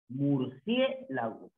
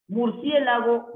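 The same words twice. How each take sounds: First: "Murciélago" slowly, split into syllables with the "cie" held together; sílabas separadas. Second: Said in the usual way. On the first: Shown as a demonstration. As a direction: break "Murciélago" into slow, softer syllables to show the I and E. ("Murciélago" despacio, por sílabas, con "cie" junto) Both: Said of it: "La I y la E".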